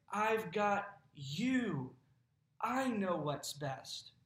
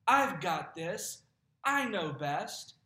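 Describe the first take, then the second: First: Slow, calm reassurance; reassuring. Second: Slow, louder proud insistence; stubborn self-reliance. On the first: God reassuring the anxious believer, slow calm reassurance. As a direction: hold them safely, slowly. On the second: Believer insisting to God, slow proud insistence. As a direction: dig in, sure you know best. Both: Retold or imitated.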